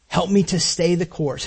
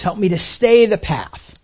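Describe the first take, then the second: First: Said in the usual way. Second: Slow it down and press on stay; stress on stay. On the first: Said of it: "prayer phrase repeated". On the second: Shown as a demonstration. Preacher repeating the prayer to the congregation, slowing and stressing stay. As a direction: stay leaned on, slower and firmer. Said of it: "same prayer repeated, stressed".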